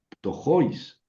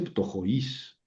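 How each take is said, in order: First: The stress falls on the o of 'jois'. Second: The stress falls on the i of 'jois'. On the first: The speaker calls it right. "lo pronuncio sobre la vocal fuerte" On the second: The speaker calls it wrong. "no dice ptojois"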